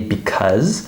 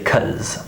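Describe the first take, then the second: First: Both syllables are said fully and slowly. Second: Only the second syllable remains, sounding like cuz. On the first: This is careful, slower speech. "I speak a little slower than how I would normally speak, so I often say because" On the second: This is normal speech at a fast pace. "We just take off the first syllable"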